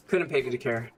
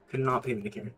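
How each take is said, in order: First: Said in the usual way. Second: Not split off and stressed, softer overall. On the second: Shown as a demonstration. Streamer repeating his indifference, stressing not. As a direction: lean on not, spelled out.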